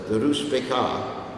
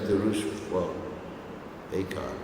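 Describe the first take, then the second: First: The two words run together as one word. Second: The two words are said apart with a break. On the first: The speaker calls it right. "So it's like you make it into one word" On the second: The speaker calls it wrong. "instead of"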